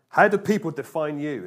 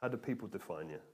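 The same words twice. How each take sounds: First: Higher, louder challenge; emphatic question. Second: Low, soft and inward; a hushed, searching repeat; quiet reflective question. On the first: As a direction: put the question to them boldly. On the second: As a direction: ask it softly, as if to yourself. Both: Shown as a demonstration. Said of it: "It's a question to ask yourself".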